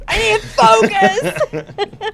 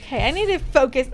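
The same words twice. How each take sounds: First: High, loud, drawn-out through laughter; laughing insistence. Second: Said in the usual way. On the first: Real, not acted. Host trying to regain focus after joking, laughing. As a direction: crack up while stretching out the words.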